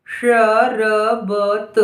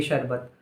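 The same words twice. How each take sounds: First: Very slow dictation; syllable by syllable. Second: Said in the usual way. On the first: Shown as a demonstration. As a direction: stretch शरबत into four separate sounds. Dictating word sound by sound.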